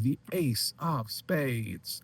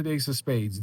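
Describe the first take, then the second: First: Slow, high showman's announcement; drawn-out reveal. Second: Slightly raised, normal-paced acted reply; acted answer. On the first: Acted. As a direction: stretch each word out for the big reveal. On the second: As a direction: give the answer briskly, a little high. Acted answer, then repeated as reveal.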